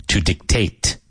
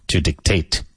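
Both takes have the same delivery.

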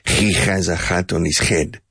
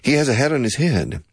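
First: The h sounds are harsh and guttural. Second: The h sounds are soft and breathy.

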